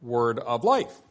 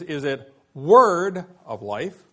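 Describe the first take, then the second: First: "word" light, "life" stressed with a rise. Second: "word" punched loud and slow, rest light; stress on word. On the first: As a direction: save the weight for "life". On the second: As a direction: lean hard on "word", slowly. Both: Shown as a demonstration. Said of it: "Which receives the emphasis?".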